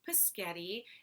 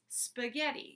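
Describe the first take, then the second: First: The word starts with a plain p sound. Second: The word starts with an sp cluster. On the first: The speaker calls it wrong. "You said it wrong" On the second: The speaker calls it right. "This is the right way to do it"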